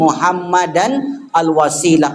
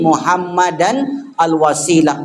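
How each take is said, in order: First: The words are separated by a stop between them. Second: The same.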